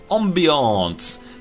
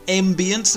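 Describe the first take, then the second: First: It is said in a posh French-style way. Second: It is said in a plain English way.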